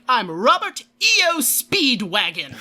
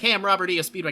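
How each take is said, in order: First: It imitates the voice actor's dramatic delivery. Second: It is said in a casual, plain voice.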